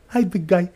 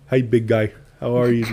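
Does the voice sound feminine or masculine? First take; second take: feminine; masculine. First: It is said in a softer, more feminine voice. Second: It is said in a plainer, less feminine voice.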